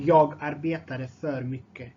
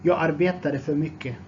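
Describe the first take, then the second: First: Measured, carefully separated words. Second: Said in the usual way. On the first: Shown as a demonstration. Teacher repeats phrase more slowly.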